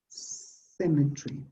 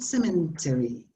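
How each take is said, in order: First: The ending is squeezed into one 'tree' syllable. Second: The ending is said as a full 'terry'. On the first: The speaker calls it right. "most words are pronounced tree" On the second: The speaker calls it wrong. "it's not cemetery"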